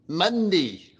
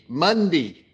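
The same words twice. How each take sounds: First: It is said in a broad Australian accent. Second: It is said in a broad Australian accent.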